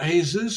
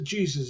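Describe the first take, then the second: First: The name is pronounced the Spanish way. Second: The name is pronounced the English way. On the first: "Spanish pronounces it" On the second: "we would pronounce it"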